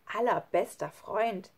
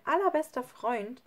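First: Slow, doubting echo; scornful. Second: Said in the usual way. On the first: A narrator's reading. Lukas doubts his best friend, scornful. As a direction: question the words with disdain.

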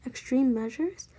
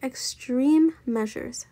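First: "Extreme measures" rising at the end; questioning echo. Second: "extreme measures" slow and loud, EXTREME stressed; emphatic statement. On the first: Baby queries her sister's plan, "Extreme measures" rising as a question. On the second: Eugenia announces her plan, "extreme measures" slow and emphatic. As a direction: declare "extreme measures" slowly, leaning hard on "extreme". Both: A narrator's reading.

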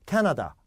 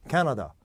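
First: 캐나다 with clear "na-da"; Korean-style full vowels. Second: 캐나다 as "KAE-nuh-duh"; native-like reduced vowels. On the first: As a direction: pronounce every vowel of 캐나다 fully. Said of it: "좀 달라요". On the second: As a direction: hit 캐, blur 나다 into schwas. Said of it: "뭐가 다르죠?". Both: Shown as a demonstration.

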